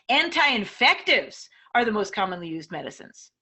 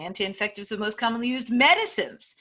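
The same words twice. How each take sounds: First: The emphasis falls on anti-infectives. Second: The emphasis falls on medicines. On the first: The type of drug matters most. "If the most important words in this sentence are the anti-infectives, then you can emphasize them" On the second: They are medicines rather than equipment. "Maybe the medicines is the most important"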